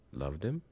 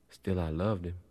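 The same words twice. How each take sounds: First: "Loved him?" with a rising tune; questioning echo. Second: "loved him" stated with a falling tune; falling statement. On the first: Listener querying the old woman's love, rising question. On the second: Old woman admitting she loved her master, falling statement. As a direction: let "loved him" fall as settled fact. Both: A narrator's reading.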